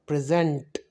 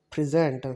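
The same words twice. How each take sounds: First: "present" as a verb, weight on its final syllable; second-syllable stress. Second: "present" as a noun, weight on its opening syllable; first-syllable stress. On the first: Teacher showing the verb form, "present" stressed on the second syllable. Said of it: "as a verb". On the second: Teacher showing the noun form, "present" stressed on the first syllable. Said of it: "give the stress on the first syllable". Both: Shown as a demonstration.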